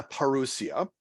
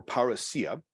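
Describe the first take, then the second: First: "parousia" said the first of two Greek ways; variant Greek pronunciation. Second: "parousia" said the second of two Greek ways; alternative Greek pronunciation. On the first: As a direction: give "parousia" its fuller Greek reading, ending on a rise. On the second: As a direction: offer "parousia" as the alternative Greek reading, stressed near the end. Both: Shown as a demonstration. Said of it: "depending on how your Greek is pronounced".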